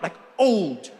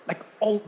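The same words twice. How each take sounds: First: Put-on "old" drawn out long with a falling end; emphatic old. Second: Said in the usual way. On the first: Shown as a demonstration. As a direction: stretch "old" to show extreme age. Contrasting degrees of old.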